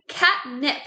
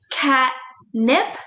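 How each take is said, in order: First: Said in the usual way. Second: Catnip slowly in two parts, cat, pause, nip; split into syllables. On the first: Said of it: "We're looking at the word catnip here". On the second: Shown as a demonstration. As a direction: break catnip after cat with a clear gap. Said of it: "I hear two parts to that word".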